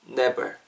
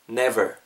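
First: The lips touch, so it sounds like b. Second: Teeth on the lip make a clear v. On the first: The speaker calls it wrong. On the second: The speaker calls it right.

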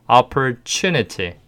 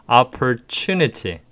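The two takes are said the same way.

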